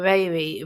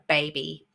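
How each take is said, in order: First: The b sounds are soft, without lip closure. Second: The b sounds are explosive, with closed lips. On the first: The speaker calls it wrong. "they make this too soft" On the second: The speaker calls it right. "It's quite an explosive sound"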